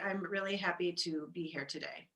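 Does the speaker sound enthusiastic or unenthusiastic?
unenthusiastic. The voice sounds flat and unenthusiastic. The speaker is not really happy to be there. "you'd be like, ah"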